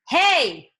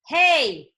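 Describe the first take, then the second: Both takes have the same delivery.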